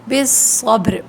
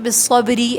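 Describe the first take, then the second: First: The word ends on a bare consonant. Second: The word ends with a vowel sound. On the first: The speaker calls it right. "बिस्सब्र पढ़ें" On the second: The speaker calls it wrong. "ऐसे नहीं बोलें"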